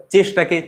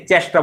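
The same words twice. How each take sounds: First: Said in the usual way. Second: চেষ্টা with an open "æ" in the first syllable; regional vowel pronunciation. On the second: Shown as a demonstration. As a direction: widen চেষ্টা to "chæshta". (চেষ্টা-য় আঞ্চলিক অ্যা উচ্চারণ) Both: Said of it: "এ কথাটাকে এ বলা হয়".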